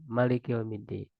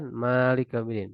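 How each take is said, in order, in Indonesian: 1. Vokal pertama pada Malik dibaca pendek. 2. Vokal pertama pada Malik dibaca panjang. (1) "yang keraat-keraat lain itu pendek"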